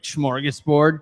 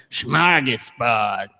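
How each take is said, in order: First: Said in the usual way. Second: Slow, drawn-out funny accent with dropped Rs; stretched-out comic accent, R's softened away. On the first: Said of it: "like, in, like, a funny accent". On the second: Shown as a demonstration. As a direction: say SMORGASBORD in a silly non-rhotic accent. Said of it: "in, like, a funny accent".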